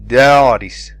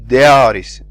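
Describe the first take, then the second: First: The long a vowel shifts quality from start to end. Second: The same.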